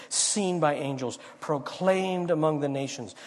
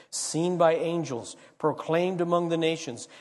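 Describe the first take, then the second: Both takes have the same delivery.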